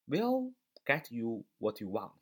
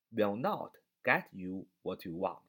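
First: WILL leaned on, every word slow and spaced; teacher reading "will get you what you want" slowly, leaning on "will"; slow stressed will. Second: NOT punched, every word slow and spaced; teacher hitting "not" in "will not get you what you want"; stress on not. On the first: Teacher contrasts the two sentences slowly, stress on will. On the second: Teacher sets the negative against the first line, stress on not. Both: Shown as a demonstration.

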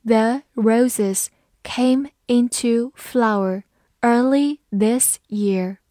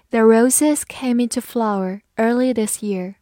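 First: Slow, word-by-word model reading; unhurried teacher's demonstration, each word separate. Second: Said in the usual way. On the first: Shown as a demonstration. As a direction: read it slowly with a gap after each word. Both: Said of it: "好，慢慢来读".

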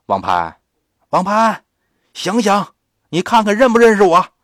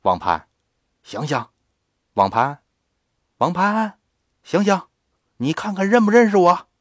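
First: 又高又响，加快语速冲着孩子喊; 扯开嗓门急促地连声叫唤; 大声急喊. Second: 抱着孩子一声声喊他醒来，音调抬高; 连喊带问，声音往上提. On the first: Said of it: "接着对着这孩子呀喊". (打完孩子后冲着他高声急喊) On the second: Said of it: "喊他". (李婶抱着孩子叫他醒，扬声呼喊) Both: Acted.

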